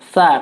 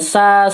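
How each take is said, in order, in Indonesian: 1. Bunyinya lembut seperti th, dengan lidah di antara gigi. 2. Bunyinya mendesis tajam seperti s. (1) "di ujung lidah lembut ... tapi sa" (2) "bukan sa, si ... Kalau sa jadi sin"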